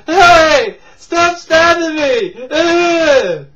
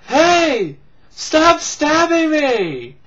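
First: High, loud laughing protest ending in a groan; mock yell. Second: High, loud drawn-out protest; mock yell. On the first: Acting out the stabbed guy again, hammed-up loud scream. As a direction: scream it hammed up, slow, with a grunt. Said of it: "It's like". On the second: Acting out the stabbed guy, hammed-up loud yell.

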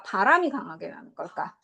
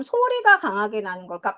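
First: 바람이 set up as the alternative; stress on 바람이. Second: 소리가 punched at the start; stress on 소리가. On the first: Teacher offering air as second choice, stress on 바람이. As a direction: lean on 바람이, the rest lower. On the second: Teacher asking students sound or air, stress on 소리가. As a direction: hit 소리가, then let the question run on. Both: Shown as a demonstration.

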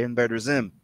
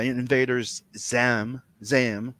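First: Said in the usual way. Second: "Zam" with an a for the i, drawn out; wrong vowel demo. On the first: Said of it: "You say invader Zim". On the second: Shown as a demonstration. Arguing about pronunciation, "Zam" said slowly with an a. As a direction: stretch "Zam" slowly, short a replacing Zim's i. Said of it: "you don't say".

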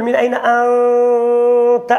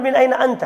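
First: من أين أنت؟ slow, the ن of من hidden and held two counts, the length of one alif; من أين أنت؟ with the ن of من drawn out for two counts; tajweed ikhfa. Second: Said in the usual way. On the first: Shown as a demonstration. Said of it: "بل تقول". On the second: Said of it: "لا تقل".

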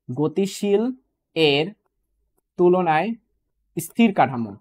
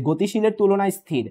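First: Long pauses between গতিশীল, এর and তুলনায়; word-by-word emphasis. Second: Said in the usual way. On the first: Shown as a demonstration. Teacher showing reversed exam wording, slow and separated. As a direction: break it apart slowly, one word at a time. Same phrase broken up for students.

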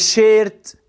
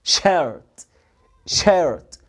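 First: "شيرت" with a long "ay" before the R; long A mispronunciation. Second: "شيرت" with an r-coloured vowel, low and falling; correct English R. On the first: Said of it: "هو انت عملتها لونج ايه ليه؟". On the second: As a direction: give the R in "شيرت" its full English sound. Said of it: "حرف الار اديله اهتمامه وانطقه صح". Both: Shown as a demonstration.

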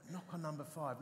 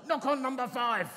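First: Soft, low voiced murmur; little whisper. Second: Loud, higher imitated command; grown-loud inner voice. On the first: Inner voice nudges the reluctant vicar, little whisper. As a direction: imitate a small, quiet inner nudge. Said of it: "this little whisper". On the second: Inner voice now insists to the vicar, loud command. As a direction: blare out the insistent inner prompting. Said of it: "grown to a sound that's like".

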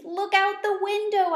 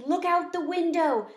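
First: Much higher and louder, OUT pushed hard; desperate little plea to look; pleading squeak. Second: Higher, eager little voice, OUT lifted; excited squeak. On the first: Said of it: "I squeaked". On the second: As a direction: urge them to look, bright and eager. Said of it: "I squeaked excitedly". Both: Acted.

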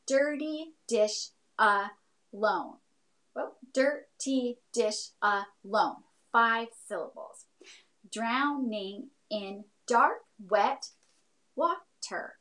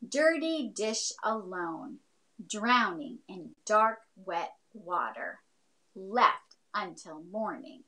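First: Slow, syllable by syllable; counting syllables. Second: Slow, deliberate recital; poem reading. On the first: Teacher counting her haiku's syllables, slow and spaced. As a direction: tap out each syllable slowly. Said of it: "we could count out those syllables". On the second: Teacher reads her own haiku aloud, slow and deliberate. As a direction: read each line like a poem, slowly. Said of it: "I wrote this one called In the Sink". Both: Shown as a demonstration.

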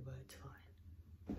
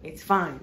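First: Whispered resigned aside; whispering. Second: Loud emphatic reassurance. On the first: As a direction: breathe it out almost silently. Whispered aside, then loud repeat. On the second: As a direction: blurt it out loudly. Loud repeat after whisper. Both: Real, not acted.

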